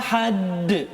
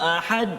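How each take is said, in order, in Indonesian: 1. Konsonan akhir memantul berat, seolah-olah digandakan. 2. Konsonan akhir sama sekali tidak memantul. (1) "Kadang-kadang kita memberatkan sangat" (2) "Hilang qalqalah dia"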